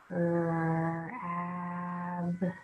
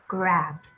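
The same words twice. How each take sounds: First: The word is said slowly, one sound at a time. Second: The word is said quickly as one smooth unit. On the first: "Sound it out" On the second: "Read it fast"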